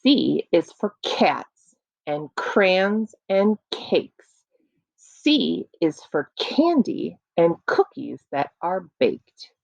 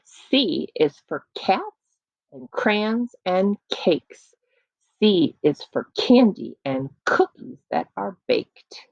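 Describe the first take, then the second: First: Slow rhythmic poem recitation; sound poetry. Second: Slow poem read again; sound poetry. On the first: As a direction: recite it slowly for children. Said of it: "this poem, again, is called Letter C". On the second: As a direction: recite it slow and bouncy. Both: Shown as a demonstration.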